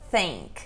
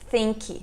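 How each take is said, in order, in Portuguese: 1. A palavra termina na consoante, sem vogal. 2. Uma vogal extra é acrescentada depois da consoante final. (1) "Nós falamos think" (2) "Nós também não falamos think"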